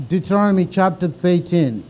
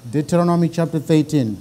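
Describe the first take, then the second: No difference in how they are said.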